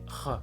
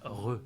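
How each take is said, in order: First: The sound is a rough Spanish jota. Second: The sound is a French-style R. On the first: The speaker calls it right. "c'est re. C'est la rota" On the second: The speaker calls it wrong. "c'est pas re"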